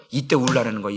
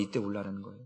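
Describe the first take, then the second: First: Said in the usual way. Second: Much softer, lower repeat of 울라라는; quiet, lower echo of 울라라는; hushed echo. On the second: Real, not acted. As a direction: let the repeat of 이때 울라라는 fall to a near whisper.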